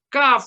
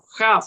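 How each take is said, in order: First: It begins with a hard k sound. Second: It begins with a raspy throaty kh sound. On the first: The letter has the dot inside. "se va a pronunciar como una K de kilo" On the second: The letter has no dot inside. "se va a pronunciar como una J"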